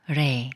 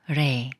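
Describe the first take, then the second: First: The consonant is light, soft and flap-like. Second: The same.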